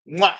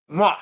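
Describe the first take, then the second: First: Loud smacking kiss sound; double air kiss. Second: Second smacked kiss sound; double air kiss. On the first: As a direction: blow a big kiss to camera. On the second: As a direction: blow one more kiss to camera. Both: Real, not acted. Blowing kisses goodbye to viewers.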